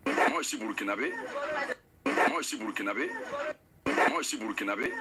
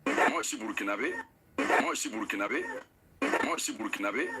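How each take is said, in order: Both takes have the same delivery.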